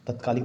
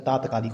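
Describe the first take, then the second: First: तत्कालिक with a short first a; the wrong तत्कालिक, short a at the start; तत्कालिक as the mistake; wrong form said. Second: तात्कालिक with a long first aa; the right तात्कालिक, long aa at the start; तात्कालिक with long aa, corrected; correct form. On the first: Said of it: "तत्कालिक नहीं होता". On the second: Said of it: "तात्कालिक होता है". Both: Shown as a demonstration.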